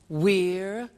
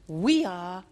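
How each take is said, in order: First: The words are joined into one short syllable. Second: Both words are said fully and separately.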